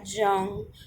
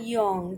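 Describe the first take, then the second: First: The name begins with a hard J sound. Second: The name begins with a Y sound. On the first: The speaker calls it wrong. "the pronunciation is not Carl Jung" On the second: The speaker calls it right. "So J is pronounced as Y"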